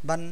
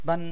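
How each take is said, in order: The two takes are said the same way.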